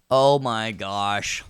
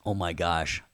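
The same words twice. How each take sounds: First: OH MY GOSH stretched out slowly and louder; drawn-out exclamation. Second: Said in the usual way. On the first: Pretend. Teacher reacting to his own joke, drawn-out exclamation. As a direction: draw out every word of "Oh, my gosh".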